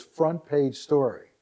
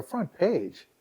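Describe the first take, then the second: First: Slow, weighty FRONT PAGE STORY; proud announcement. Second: Higher-pitched, disbelieving echo; astonished echo. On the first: Reporter breaking the big news to her, slow announcement of FRONT PAGE STORY. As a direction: lay out FRONT PAGE STORY slowly, word by word. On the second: Website owner reacting to the reporter's front page news, astonished. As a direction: echo it back in amazement, pitched up. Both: Retold or imitated.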